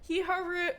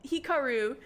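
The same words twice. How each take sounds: First: Hiharu said with an h in the middle, a slip; misread name. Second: Hikaru said carefully with a clear k; corrected name. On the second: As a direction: Hikaru fixed, the k sounded clearly. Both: Real, not acted. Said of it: "Oh, Hikaru".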